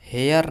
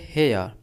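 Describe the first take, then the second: First: The final r sound is pronounced. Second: The final r sound is silent. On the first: The speaker calls it wrong. "हेयर नहीं कहेंगे" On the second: The speaker calls it right. "आर को हम pronounce नहीं करेंगे, सिर्फ कहेंगे हेयर"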